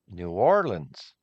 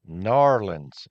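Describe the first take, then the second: First: The name is said in full, syllable by syllable. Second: The name is squeezed into two run-together syllables. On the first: This is how outsiders say it. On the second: This is how people who live there say it.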